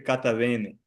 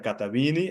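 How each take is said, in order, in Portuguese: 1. O eta é pronunciado como e aberto. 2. O eta é pronunciado como i. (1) "pode ser catavene" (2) "mas no moderno é catavine"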